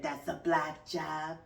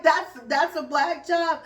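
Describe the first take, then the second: First: Deadpan sarcasm. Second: Incredulous question. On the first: Host mocking the list of jobs, dry and slow. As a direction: say it flat and sarcastic, letting it sink. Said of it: "a podcaster". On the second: Host questioning her guest's claim, stunned and loud. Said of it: "I was like". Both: Retold or imitated.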